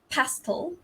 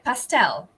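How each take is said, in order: First: The stress is on the first syllable. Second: The stress is on the second syllable. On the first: "in British English, it's the stress falls on the first syllable" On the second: "in American English, it is stress on the second syllable"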